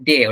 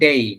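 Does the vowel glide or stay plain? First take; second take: plain; glide. First: The vowel is a plain, single 'e' sound. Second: The vowel glides from 'e' into 'i'. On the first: The speaker calls it wrong. "আমরা যেটা বলে থাকি ডে, ওটা ডে না" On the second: The speaker calls it right. "ওটা হচ্ছে ডেই"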